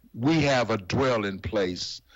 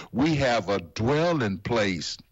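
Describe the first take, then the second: The two takes are said the same way.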